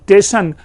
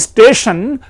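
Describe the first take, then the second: First: The s is dropped, starting with 'te'. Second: The word begins with an s-t cluster.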